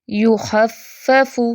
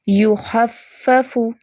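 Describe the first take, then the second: Both takes have the same delivery.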